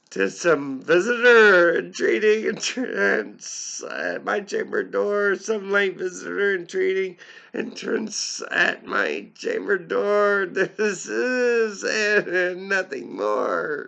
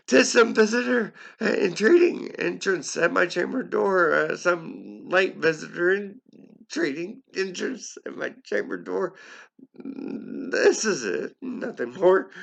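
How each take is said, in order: First: Squeaky high quoted voice, slowed at the end; high put-on voice. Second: High, loud character voice for the quote; high strained character voice; high put-on voice. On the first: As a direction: voice jumps high and loud for the quote. Narrator voicing the speaker's muttered line. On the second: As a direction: pitch the quoted line way up and push it. Narrator voicing the quote again.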